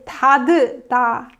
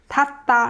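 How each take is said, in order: First: The final t is released with an extra vowel. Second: The final t is stopped without a vowel. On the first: The speaker calls it wrong. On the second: The speaker calls it right.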